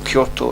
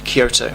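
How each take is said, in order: First: It is said the native Japanese way. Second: It is said the common English way. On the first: The speaker calls it right. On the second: The speaker calls it wrong.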